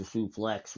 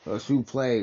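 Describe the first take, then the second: First: Said in the usual way. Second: Suplex said soo-PLAY, ending dropped; mock-French suplex. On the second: Shown as a demonstration. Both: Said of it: "a suplex with a French accent".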